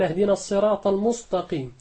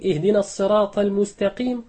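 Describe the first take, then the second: First: المستقيم said 'muṣṭaqīm' with emphatic ṣ and ṭ; المستقيم بالصاد والطاء; sad for sin, ta for ta. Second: Said in the usual way. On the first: Shown as a demonstration. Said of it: "فأبدل السين صادا والتاء طاء". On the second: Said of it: "بدلا من أن يقول".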